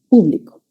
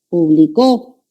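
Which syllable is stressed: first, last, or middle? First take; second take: first; last. First: The stress is on the first syllable. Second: The stress is on the last syllable. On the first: The audience, a group of people. "Esa es esdrújula" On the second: Someone else published, in the past. "puede aparecer también al final"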